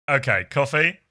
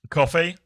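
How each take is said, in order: First: Said in the usual way. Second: "Coffee?" with a rounded "aw" New York vowel and a rising tune; a New York "Coffee?", asked with a rise; "Coffee?" put in a New York accent. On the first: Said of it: "I'll go coffee". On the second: Shown as a demonstration.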